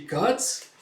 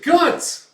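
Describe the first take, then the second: First: Said in the usual way. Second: GUTS yelled very high and loud; alarmed shout of the name. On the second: Retold or imitated. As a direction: scream “Guts” as a warning. Warning cry to Guts.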